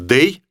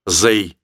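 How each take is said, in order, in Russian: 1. Слово начинается со звука d. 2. Слово начинается со звука z. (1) "Лучше скажите «they»" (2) "чем «they»"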